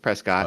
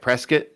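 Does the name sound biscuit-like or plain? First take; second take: plain; biscuit-like. First: The name is said without sounding like biscuit. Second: The name is said sounding like biscuit. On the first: This is the name's proper form. The speaker calls it right. "it's Prescott" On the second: This is how some older people say it. The speaker calls it wrong. "Sounds kind of like biscuit"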